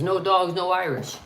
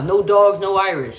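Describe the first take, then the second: First: Said in the usual way. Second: Emphatic sign quote. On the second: Retold or imitated. Streamer quoting old anti-Irish signs, emphatic and louder. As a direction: punch out the sign's words, louder.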